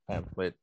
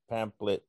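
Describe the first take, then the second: First: "pamphlet" said as PAM-flit. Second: "pamphlet" said as PAM-plit; pamphlet without the F. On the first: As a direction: sound the F in "pamphlet". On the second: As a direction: drop the F sound in "pamphlet". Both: Retold or imitated. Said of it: "back and forth".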